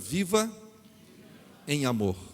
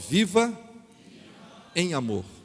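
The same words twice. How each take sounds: First: It is said at normal volume. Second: It is said louder and more forcefully.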